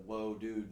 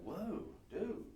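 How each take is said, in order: First: Said in the usual way. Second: Higher, stoked skater dude drawl. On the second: Pretend. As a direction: gush like an awestruck skater. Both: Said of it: "I sound like a skater dude".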